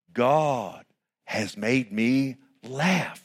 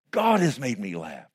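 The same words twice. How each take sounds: First: Very slow, each word lingered on; slow savoring read. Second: Said in the usual way. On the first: Acted. Preacher reading Sarah's joy to the church, very slow. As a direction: savor Sarah's words, slowly.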